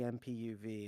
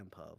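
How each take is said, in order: First: The third letter is said as U. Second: The third letter is said as O. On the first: "you're supposed to say M P U V" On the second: "I just call it the M P O V"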